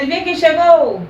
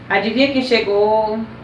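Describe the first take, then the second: First: It is said as a plain question. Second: It is said with suspense, trailing off.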